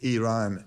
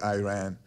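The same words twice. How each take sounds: First: The first vowel is a short 'ih' sound. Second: The first vowel is a long 'eye' sound. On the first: The speaker calls it right. "it's Iran" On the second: The speaker calls it wrong. "it's not Iran"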